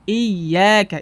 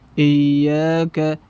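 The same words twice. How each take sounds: First: The first vowel sounds thin and light. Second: The first vowel sounds thick and heavy. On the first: The speaker calls it right. "menyempurnakan harokat kasrah dengan menurunkan rahangnya... seperti tersenyum" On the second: The speaker calls it wrong. "tidak sempurnakan... sehingga tebal bunyinya"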